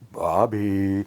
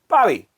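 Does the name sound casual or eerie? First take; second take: eerie; casual. First: The name is said in an eerie, creepy way. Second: The name is said in a casual, ordinary way. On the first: "it was the creepiest" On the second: "not just going like"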